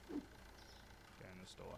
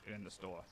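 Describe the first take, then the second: First: Slow breathy whisper. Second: Said in the usual way. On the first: Real, not acted. Streamer whispering to the boxes while stocking shelves, slow. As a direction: hush it out slowly under the breath.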